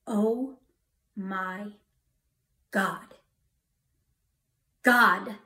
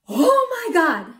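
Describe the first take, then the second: First: Word by word with long pauses; slow, deliberate calling on God, not shouted; awed, sobered exclamation. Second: High, loud, drawn-out cry of alarm; panicked yell. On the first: Newly sober driver calling on God, slow awe. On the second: Drunk driver in a runaway car, panicked yell. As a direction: yell it out as the car moves by itself. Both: Retold or imitated. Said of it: "I yelled".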